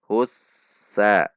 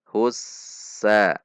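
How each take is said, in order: The two takes are said the same way.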